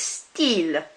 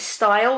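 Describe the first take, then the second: First: It is said with a French pronunciation. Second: It is said with an English pronunciation. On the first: The speaker calls it right. "instead it's style" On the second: The speaker calls it wrong. "which is the very English pronunciation of it"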